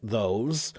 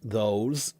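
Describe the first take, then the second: Both takes have the same delivery.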